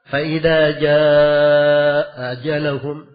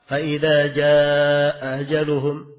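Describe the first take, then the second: Both takes have the same delivery.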